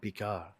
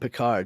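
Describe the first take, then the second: First: The name is said with a French pronunciation. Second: The name is said with an English pronunciation. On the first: "the proper pr- French pronunciation" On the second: "doesn't ever call him Picard"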